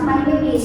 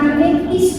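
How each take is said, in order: First: The vowel in 'is' leans toward e. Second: The vowel in 'is' is a pure, tense i. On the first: The speaker calls it right. "tapi my name is. Jadi agak i ke e" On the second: The speaker calls it wrong. "Bukan my name is"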